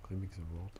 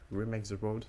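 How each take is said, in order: First: French speaker's clumsy English accent. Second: Louder, exaggerated English accent. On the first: Real, not acted. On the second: Shown as a demonstration. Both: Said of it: "J'ai un accent anglais tout pourri".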